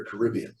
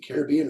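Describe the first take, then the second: First: "Caribbean" as kuh-RIB-ee-un, stress on RIB; second-syllable stress. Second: "Caribbean" as CARE-ih-BEE-un, stress on BEE; first-syllable stress. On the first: Caller offering the other way, "Caribbean" as kuh-RIB-ee-un. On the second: Caller asking which way to say it, "Caribbean" as care-ih-BEE-un. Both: Shown as a demonstration. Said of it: "is it Caribbean or Caribbean".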